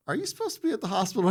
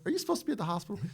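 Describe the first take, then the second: First: High, quick disbelieving question; incredulous. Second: High disbelieving question; incredulous. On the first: Colonel asks the battered Marine in high, quick disbelief. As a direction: sound amazed he's even standing there. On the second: Colonel repeats the question to the Marine, high and disbelieving. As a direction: let the disbelief ring out. The same question quoted again. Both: Retold or imitated.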